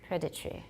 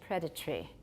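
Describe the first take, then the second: The two takes are said the same way.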